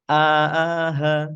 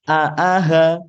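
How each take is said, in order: First: The syllables are drawn out long and slow. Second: The syllables are short and said quickly. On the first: The speaker calls it wrong. "Jangan sampai ... itu panjang" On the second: The speaker calls it right. "Harusnya temponya dipercepat"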